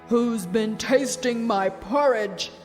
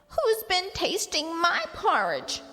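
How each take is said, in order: First: It is exclaimed in Father Bear's deep voice. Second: It is squeaked in Baby Bear's tiny voice.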